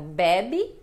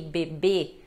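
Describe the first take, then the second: First: The stress is on the first syllable. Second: The stress is on the second syllable. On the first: It means he or she drinks. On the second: It means a baby.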